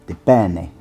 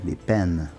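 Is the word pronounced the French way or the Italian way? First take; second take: Italian; French. First: The word is pronounced the Italian way. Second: The word is pronounced the French way. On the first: The speaker calls it right. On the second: The speaker calls it wrong.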